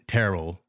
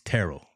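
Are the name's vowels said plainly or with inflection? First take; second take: plainly; with inflection. First: The vowels are said plainly, without extra inflection. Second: The vowels carry a noticeable inflection. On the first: The speaker calls it wrong. "not Terrell" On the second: The speaker calls it right. "There's a little inflection there on the vowels"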